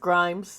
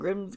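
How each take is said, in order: First: The vowel is long, like in 'times'. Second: The vowel is short, like in 'dims'. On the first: The speaker calls it right. "It's [name]. I originally said it right" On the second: The speaker calls it wrong. "is that how you pronounce her name?"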